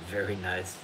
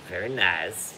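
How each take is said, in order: First: It is said in the speaker's ordinary accent. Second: It is said in a put-on foreign accent.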